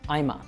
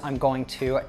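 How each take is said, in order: First: The words are squeezed into one short word. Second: All three words are said fully and separately. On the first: "to I'ma" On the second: "you can reduce I'm going to"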